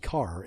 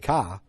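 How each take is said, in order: First: It is said with the r pronounced. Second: It is said with the r dropped.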